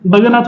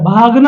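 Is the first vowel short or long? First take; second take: short; long. First: The first vowel is short. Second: The first vowel is long. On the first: The speaker calls it wrong. "भगना थोड़ा ही होता है" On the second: The speaker calls it right. "भागना होता है"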